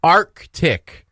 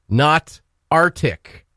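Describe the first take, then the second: First: Arctic, the c sounded: ARK-tik. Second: Arctic said ARR-tik, no k sound; Arctic without the k. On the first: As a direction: say Arctic with a hard k. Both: Shown as a demonstration. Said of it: "in capital letters".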